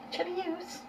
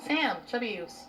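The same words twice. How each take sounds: First: Cooing pet voice. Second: Said in the usual way. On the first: Real, not acted.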